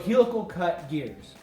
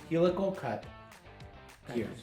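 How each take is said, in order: First: It is said in a bright, happy voice. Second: It is said in a plain, neutral tone.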